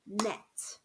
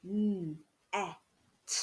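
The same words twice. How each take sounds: First: Said in the usual way. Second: N, e, t, each sound alone like a robot. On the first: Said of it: "They would say net". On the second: Shown as a demonstration. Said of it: "pretend to be robots".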